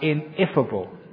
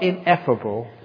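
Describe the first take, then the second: First: The second syllable sounds like 'if'. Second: The second syllable sounds like 'eff'. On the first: One cannot ask 'what if' about it. "but ineffable. You cannot if the past" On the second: It cannot be expressed in words. "Not ineffable"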